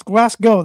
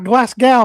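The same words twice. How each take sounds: First: Glasgow said as GLASS-go, loud and higher; pronounced "-go". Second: Glasgow said as GLASS-gow, rhyming with cow; mispronounced "-gow". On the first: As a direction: firmly end Glasgow on "oh", not "ow". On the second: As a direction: loudly end Glasgow on an "ow" sound. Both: Shown as a demonstration. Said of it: "That's how it's pronounced".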